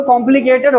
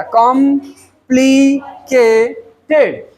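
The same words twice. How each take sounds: First: Said in the usual way. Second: कॉम्प्लिकेटेड very slowly split, com... pli... ke... ted; slow four-part breakdown of कॉम्प्लिकेटेड, com, pli, ke, ted; syllable by syllable. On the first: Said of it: "अब आते हैं four syllable में". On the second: Shown as a demonstration. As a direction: stretch कॉम्प्लिकेटेड into four beats with long gaps. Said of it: "four syllabic word हो गया".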